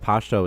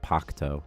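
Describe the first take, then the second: First: The middle consonant is a plain sh sound. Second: The middle consonant is a harsh guttural sound. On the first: This is the easy form used in Kandahar. "they pronounce that noise, like the ch noise, as like sh" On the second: This is how the word is actually pronounced. "Pashto is actually like Pakto"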